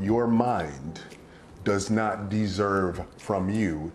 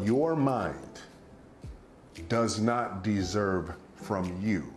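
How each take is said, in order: First: It is spoken at a normal, quicker pace. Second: It is spoken at a noticeably slower pace.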